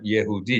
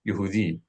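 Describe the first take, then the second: First: The first vowel is a short eh sound. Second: The first vowel is a short unstressed oo sound. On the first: The speaker calls it wrong. "it's really not Yehudi" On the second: The speaker calls it right. "it's really Yehudi"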